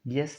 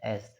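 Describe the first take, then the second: First: The letter name begins with a y sound. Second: The letter name begins with a vowel sound. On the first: The speaker calls it wrong. "यस नहीं होता" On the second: The speaker calls it right. "एस होता है"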